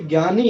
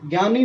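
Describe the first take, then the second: First: The first syllable begins with a j sound. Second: The first syllable begins with a g sound. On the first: The speaker calls it right. "जैसे ज्ञानी है" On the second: The speaker calls it wrong. "ज्ञानी नहीं होता है"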